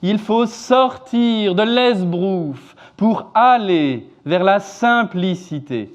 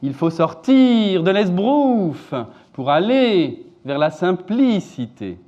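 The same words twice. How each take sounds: First: Key words are stressed on their first syllables. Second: Key words are stressed on their second syllables.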